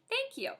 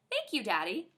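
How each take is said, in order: First: Squealed thanks. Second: Said in the usual way. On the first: Acted. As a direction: thank you jumping much higher. Gushing thanks to daddy.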